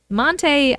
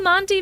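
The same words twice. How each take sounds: First: "Monte" said as MON-tay; Monte ending in "tay". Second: "Monte" said as MON-tee; Monte ending in "tee". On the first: Trying the hotel name another way, "Monte" as MON-tay. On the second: Reading the hotel title, "Monte" as MON-tee. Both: Shown as a demonstration. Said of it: "I don't know if I'm saying that right".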